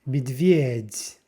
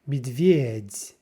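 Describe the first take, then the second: First: The first vowel is reduced toward 'i'. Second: The same.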